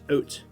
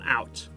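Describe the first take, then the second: First: It is said with a Canadian vowel. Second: It is said with an American vowel. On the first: The speaker calls it right. "We say Canada out. Okay, that's the right way to say it" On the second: The speaker calls it wrong. "Americans on the call, it's not out"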